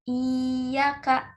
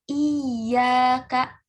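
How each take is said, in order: First: The y sound is light and single. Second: The y sound is pressed and doubled. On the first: The speaker calls it wrong. "tanpa menekan iya" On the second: The speaker calls it right. "dengan menekan iya"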